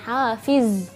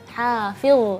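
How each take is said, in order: First: The final consonant is a z, tongue inside. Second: The final consonant is dh, tongue out. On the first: The speaker calls it wrong. "bukan hafiz" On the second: The speaker calls it right.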